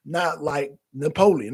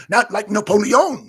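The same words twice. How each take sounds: First: Said in the usual way. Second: Napoleon in a higher, louder French accent; mock French accent. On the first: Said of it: "somebody like Clay Higgins". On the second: Shown as a demonstration. Streamer showing why Gambit's accent was too strong, mock French accent. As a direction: put on a strong French accent, NAPOLEON ending in a round "-yohn". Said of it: "It was like France, France accent".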